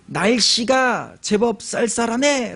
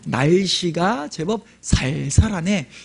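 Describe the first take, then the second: First: The s sounds are tense and strong. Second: The s sounds are plain and soft.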